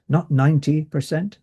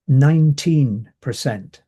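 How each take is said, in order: First: "ninety" with a short, unstressed second syllable; contrast on NINETY. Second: "Nineteen" said firmly, second syllable held out clearly; stress on NINETEEN. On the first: Lecturer ruling out the misheard number, contrast on NINETY. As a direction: set "ninety" apart as the wrong number. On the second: Lecturer correcting a possible mishearing for students, stress on NINETEEN. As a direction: make "Nineteen" unmistakable, with a clear TEEN. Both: Shown as a demonstration.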